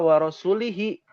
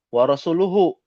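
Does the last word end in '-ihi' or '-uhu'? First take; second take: -ihi; -uhu. First: The last word ends with the vowels i-hi. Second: The last word ends with the vowels u-hu. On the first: God is free from the idolaters and from His Messenger. The speaker calls it wrong. "ini sahabat ini bacanya salah" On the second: God and His Messenger are free from the idolaters. The speaker calls it right. "Aslinya seperti itu"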